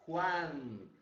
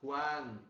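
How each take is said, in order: First: Juan said loud with a throaty Spanish j; Spanish Juan demo. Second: Juan said loud with a wide open a. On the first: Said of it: "em espanhol". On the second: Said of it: "olha a abertura do A". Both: Shown as a demonstration.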